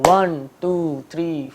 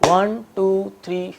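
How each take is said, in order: The two takes are said the same way.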